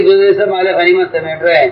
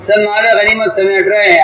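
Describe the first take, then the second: First: Said in the usual way. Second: سب pitched higher in a pleading repeat; stress on سب. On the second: Retold or imitated. Archers complaining to their commander, sharper stress on سب. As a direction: lift سب, pressing the complaint again. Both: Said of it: "چلیے، آپ امیر صاحب".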